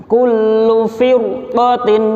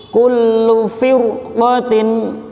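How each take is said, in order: No difference in how they are said.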